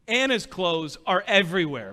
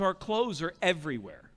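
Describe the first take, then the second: First: Pointed emphasis on "Anna's"; stress on Anna's. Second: Said in the usual way. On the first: Real, not acted. Speaker correcting whose clothes fill the room, stress on "Anna's". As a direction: lean on "Anna's" as a wry correction. Correcting "our" to wife's name.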